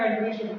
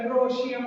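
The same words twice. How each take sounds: First: The vowel after 'andr' sounds like 'ee'. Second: The vowel after 'andr' sounds like 'o'. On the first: The speaker calls it right. "सही होगा" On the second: The speaker calls it wrong. "थोड़ा सा ओ करके"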